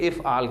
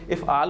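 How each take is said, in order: First: The final letter is silent, with no vowel. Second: The final letter is voiced with a vowel. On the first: "हम आखिरी हर्फ चूँकि साकिन करके बोलते हैं उर्दू में" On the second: "मैं इफ़आल नहीं कह रहा"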